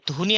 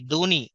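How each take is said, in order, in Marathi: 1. पहिला व्यंजन हवेच्या झोतासह उच्चारला जातो, तो महाप्राण आहे. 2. पहिला व्यंजन साधा 'd' आहे. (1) "ते धोनी असा उच्चार करीत नाहीत" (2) "ध हा उच्चार करत नाहीत"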